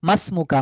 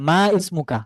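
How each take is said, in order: First: The words are linked and the 'i' is dropped. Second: The words are separate and the 'i' is pronounced. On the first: The speaker calls it right. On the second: The speaker calls it wrong.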